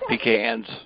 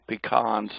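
First: It is said the southern way. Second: It is said the northern Missouri way. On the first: "not pecans" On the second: "in northern Missouri, though, we call them pecans"

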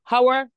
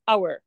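First: The word begins with an h sound. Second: The word begins without an h sound. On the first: The speaker calls it wrong. "ما بقولش هاور" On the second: The speaker calls it right. "بقول اور. الاتش سايلنت"

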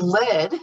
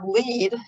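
First: The vowel sounds like 'bed'. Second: The vowel sounds like 'bead'. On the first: A metal. "a metal" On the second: To guide. "the verb lead, yielding guide"

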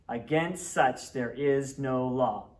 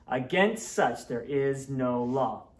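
Both takes have the same delivery.

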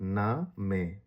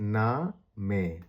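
No difference in how they are said.

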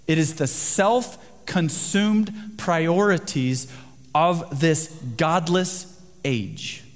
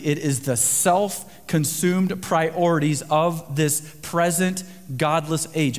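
First: It is said at a slower pace. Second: It is said at a normal, faster pace.

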